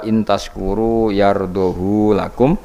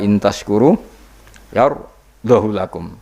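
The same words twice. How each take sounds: First: The vowel of 'hu' is lengthened. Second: The vowel of 'hu' is kept short. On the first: "isba berarti normal" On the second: "tanpa isba"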